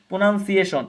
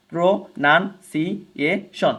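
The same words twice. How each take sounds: First: Said in the usual way. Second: প্রনাউন্সিয়েশন stretched very slowly into its syllables; slow multi-syllable demo of প্রনাউন্সিয়েশন. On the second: Shown as a demonstration. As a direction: pull প্রনাউন্সিয়েশন apart syllable by syllable. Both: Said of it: "বহু syllable যুক্ত".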